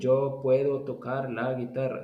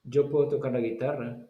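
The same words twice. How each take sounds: First: The sentence is spoken slowly, word by word. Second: The sentence is spoken quickly, words run together. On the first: The speaker calls it wrong. "You don't say" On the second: The speaker calls it right. "So you say it quickly"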